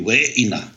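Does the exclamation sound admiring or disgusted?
admiring. It is said in a pleased, admiring tone. The speaker is impressed by something good. "it has both positive and negative connotations to it"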